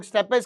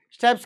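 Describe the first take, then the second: First: स्टेपेस with a vowel before the final s; two-syllable variant. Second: स्टेप्स as one syllable, ending "ps"; one-syllable variant. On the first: Teacher offers pupils a variant name for grassland, स्टेपेस in two syllables. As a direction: sound both syllables in स्टेपेस, "step-es". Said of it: "स्टेप्स कहते हैं कुछ लोग, स्टेपेस कह लो". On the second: Teacher offers pupils the other name for grassland, स्टेप्स in one syllable. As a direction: run p straight into s in स्टेप्स. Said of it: "स्टेप्स कहते हैं कुछ लोग". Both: Shown as a demonstration.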